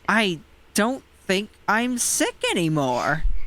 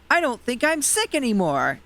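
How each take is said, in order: First: It is said in a puzzled, questioning voice. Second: It is said in a plain, unpuzzled voice. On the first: The speaker calls it right. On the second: The speaker calls it wrong.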